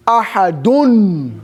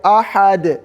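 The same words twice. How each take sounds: First: Ahadun drawn out slowly, the -un sounded in full; teacher showing the full vowel ending; full tanween Ahadun. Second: Ahad cut off at the dal with no vowel; teacher showing the pausal form; stop on Ahad. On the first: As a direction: stretch out every syllable of Ahadun. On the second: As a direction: end Ahad with a clean stop. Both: Shown as a demonstration. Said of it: "What is the vowel on top of the dal?".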